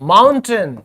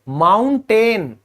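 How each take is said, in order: First: The last syllable sounds like 'tun'. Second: The last syllable sounds like 'ten'. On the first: The speaker calls it right. "टन आएगा, ये बनेगा माउंटेन" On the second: The speaker calls it wrong. "लेकिन ये बिल्कुल गलत है।"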